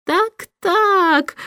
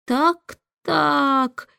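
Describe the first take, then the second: First: Higher, knowing little chuckle; a lightly voiced smirking official; chuckling chancellor. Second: Amazed. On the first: Chancellor smirks at the king's lazy answer, lightly chuckling. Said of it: "усмехнулся лорд-канцлер". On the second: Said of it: "изумлённо". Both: A narrator's reading.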